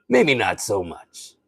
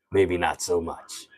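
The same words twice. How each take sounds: First: Slow impersonation with a little more excitement; Rob Sterling. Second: Low, soft, slow impersonation voice; Rob Sterling. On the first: Streamer retries the impression a little more excited, slow. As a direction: draw it out, livelier, still in character. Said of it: "He gets a little more excited". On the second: Streamer doubts the impression while still in it, low and slow. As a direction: draw it out low and quiet in character. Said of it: "He sounds a lot like Rob Sterling". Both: Acted.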